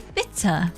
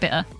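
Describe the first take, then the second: First: The middle T is clearly pronounced. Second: The middle T is dropped. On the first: "And I say bitter. And stuff like that with the T" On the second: "sometimes it slips that I don't say the T, so I go bitter"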